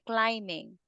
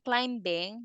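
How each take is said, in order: First: The b sound is left silent. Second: The b sound is clearly pronounced. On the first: The speaker calls it right. "Be very silent" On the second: The speaker calls it wrong. "instead of saying climbing"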